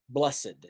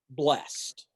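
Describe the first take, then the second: First: The word is said as two syllables. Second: The word is said as one syllable. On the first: "as we most commonly pronounce it in the context of the Beatitudes" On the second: "Let's start with the word blessed"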